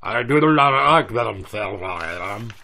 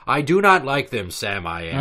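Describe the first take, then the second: First: It is said in a put-on underwater voice. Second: It is said in a normal voice.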